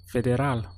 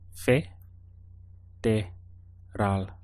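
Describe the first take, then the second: First: It is said smoothly as one connected word. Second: It is broken into separate syllables with pauses.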